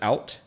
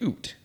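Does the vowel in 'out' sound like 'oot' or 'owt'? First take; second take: owt; oot. First: The vowel sounds like the 'ow' in cow. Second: The vowel sounds like the 'oo' in boot. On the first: It marks the usual non-Canadian way of speaking. "instead of out" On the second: It marks a stereotyped Canadian way of speaking. "like how Canadians sometimes say oot instead of out"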